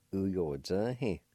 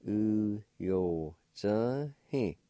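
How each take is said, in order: First: Said in the usual way. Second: "U yo zhe he" stretched very slowly; drawn out so a learner can copy it; very slow demo. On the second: Shown as a demonstration. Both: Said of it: "Pronounced like this".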